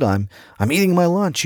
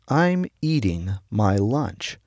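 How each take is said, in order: First: High, hurried, through a mouthful of food. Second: Slow, easygoing, in no rush; slow and unhurried. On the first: Young worker to brother, mouth full and higher, hurried. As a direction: gobble the words like a rushed eater. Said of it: "With a mouthful of food". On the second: Brother answering the rushed eater, slow and unhurried. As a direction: lay each word down at leisure. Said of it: "slid down very slowly". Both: Retold or imitated.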